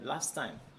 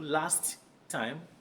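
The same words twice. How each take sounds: First: The two t sounds merge into one. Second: Both t sounds are pronounced separately. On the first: The speaker calls it right. "this is a very common phrase" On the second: The speaker calls it wrong. "you don't need to say"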